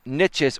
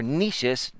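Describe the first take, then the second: First: Niches said as NITCH-iz, like itches; pronounced to rhyme with itches. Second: Niches said as NEE-shiz, long ee and soft sh; pronounced the French way. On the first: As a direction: say niches with a short i and a tch. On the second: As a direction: say niches like NEESH-iz. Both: Shown as a demonstration. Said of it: "depending on how you pronounce it".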